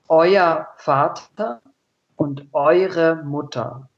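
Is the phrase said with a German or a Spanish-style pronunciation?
German. It is said with ordinary German pronunciation.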